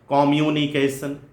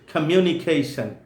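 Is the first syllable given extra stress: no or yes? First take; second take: yes; no. First: The first syllable carries an extra secondary stress. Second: The first syllable carries no extra stress. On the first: The speaker calls it wrong. "unnecessarily giving secondary stress to O" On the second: The speaker calls it right. "It is communication"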